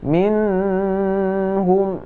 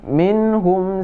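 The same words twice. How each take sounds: First: The n is held with a nasal hum. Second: The n is clear with no nasal hum. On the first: The speaker calls it wrong. "tidak boleh kita baca minhum" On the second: The speaker calls it right. "tapi harus baca"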